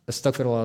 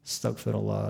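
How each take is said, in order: First: It is said fast and hurried. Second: It is said slowly and deliberately.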